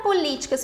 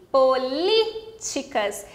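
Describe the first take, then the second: First: Said in the usual way. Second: "políticas" very slow, split around a held LI; stress on LI. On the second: Shown as a demonstration. Teacher showing why it takes an accent, slow "políticas" stressing LI. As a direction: break it up as po-LI-ticas in "políticas", dwelling on LI. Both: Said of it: "Por causa do li".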